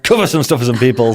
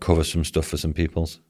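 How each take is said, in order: First: It is said brightly, with more energy. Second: It is said flatly, with little energy. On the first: The speaker calls it right. "That was better" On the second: The speaker calls it wrong. "You sounded so excited when you said that"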